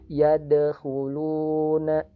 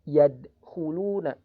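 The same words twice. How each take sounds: First: The d sound is bounced lightly and flows. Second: The d sound is abruptly cut off. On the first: The speaker calls it right. "suaranya mengalir dan dipantulkan secara ringan" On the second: The speaker calls it wrong. "bukan yadkhuluna, yadkhuluna. Jadi suaranya seperti diputus, tidak"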